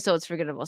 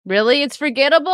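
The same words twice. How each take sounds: First: Said in the usual way. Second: Loud incredulous outburst, pitched up; can't believe chat said that; shocked disbelief. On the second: Real, not acted. Reacting in shock to a chat comment, loud disbelief.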